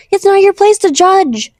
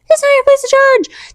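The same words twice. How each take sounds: First: Slow, stern; firm reminder. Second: Much higher, pleading insistence; impassioned repeat. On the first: Reminding viewers not to judge, stern. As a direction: lay it down slowly. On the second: Urging viewers passionately, much higher. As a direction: push it way up with feeling. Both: Shown as a demonstration.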